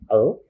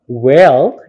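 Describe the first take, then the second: First: The word is reduced to a bare l sound. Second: The word is said fully with a clear vowel.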